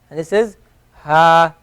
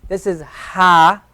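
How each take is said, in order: First: Ha said lighter, slowly; Arabic light ha. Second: Ha drawn out slowly, breathy from the throat; slow throaty ha; Arabic deep ha. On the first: Teacher contrasts two Arabic h letters, light one second. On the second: Teacher contrasts two Arabic h letters, deep one first. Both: Shown as a demonstration. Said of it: "a much deeper sound than this ha".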